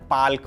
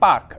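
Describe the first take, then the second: First: An L sound is heard before the K. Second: No L sound is heard before the K. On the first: The speaker calls it wrong. "अंग्रेजी में spelling P A एल के है तो कई बार उच्चारण पाल्क भी मिलेगा" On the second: The speaker calls it right. "सही उच्चारण है पाक"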